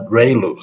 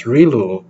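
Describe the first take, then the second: First: ReLU said as "RAY-loo"; preferred pronunciation. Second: ReLU said as "REE-loo"; alternative pronunciation. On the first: Lecturer giving the name heard from Toronto, ReLU as "ray-loo". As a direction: say ReLU with an "ay" in the first syllable. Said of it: "they call it ReLU". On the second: Lecturer showing how some people pronounce it, ReLU as "ree-loo". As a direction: say ReLU with an "ee" in the first syllable. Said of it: "some people pronounce it as". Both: Shown as a demonstration.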